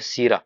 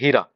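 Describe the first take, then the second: First: The word begins with an s sound. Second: The word begins with an h sound. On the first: This is the common Rajasthani form. "हलवे को बोलते हैं सीरा" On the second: This is the Bikaner regional form. "Bikaner वगैरह इस क्षेत्र में ... इसको बोलते हैं हीरा"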